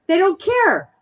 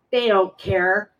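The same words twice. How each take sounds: First: "They don't care" flung out much higher; emphatic outburst. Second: Said in the usual way. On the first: Real, not acted. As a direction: burst out with "They don't care" in a high, pained voice. Repeats the phrase with sudden force.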